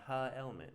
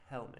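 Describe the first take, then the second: First: The h is voiced with an extra 'uh' vowel. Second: The h is a plain unvoiced breath. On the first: The speaker calls it wrong. "it doesn't say huh" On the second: The speaker calls it right. "there's no voice"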